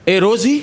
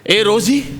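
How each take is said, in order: First: It is said flatly, without passion. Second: It is said with strong passion. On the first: The speaker calls it wrong. "असं नाही" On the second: The speaker calls it right. "हा आवेश माझ्यासारखं"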